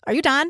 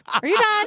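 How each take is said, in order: First: Put-on a light Southern accent on the question. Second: "Are you done?" higher, with broad Southern vowels on "done"; Southern accent. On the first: Coworker asking Vicky if she is dying, lightly Southern. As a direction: ask "Are you done?" with only a hint of Southern vowels. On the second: Retold or imitated. Coworker pressing Vicky, broad Southern accent. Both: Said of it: "Like, real Southern".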